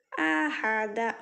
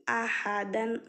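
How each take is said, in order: First: अहदा drawn out very slowly, stopping on a long -a; pausal form. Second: अहदन said with the full -an ending; full tanween ending. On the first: Teacher showing students how to stop on the word, very slow. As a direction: stretch अहदा slowly, ending on an open long a with no n. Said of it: "अहदन से अहदा में बदलकर". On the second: Teacher reading the example word to students, clear full ending. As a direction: read अहदन clearly with the nasal -an at the end. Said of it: "अहदन से क्या करेंगे हम?". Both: Shown as a demonstration.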